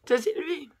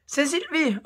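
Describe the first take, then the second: First: C'est said as a clipped "tè" with an odd voice; mock-read C'est Sylvie, stressing C'est; misspelt name read out. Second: C'est Sylvie, read as written with the misspelt S apostrophe; spelling out the hater's C'est as S apostrophe; misspelt name read out. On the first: Shown as a demonstration. Youtubeuse repeats the hater's misspelt line to viewers, mocking. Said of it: "Vous voyez ou pas?". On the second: Retold or imitated. Youtubeuse reading a hater's misspelt email aloud, mocking. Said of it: "c'est S apostrophe E S T".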